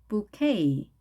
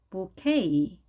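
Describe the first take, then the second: No difference in how they are said.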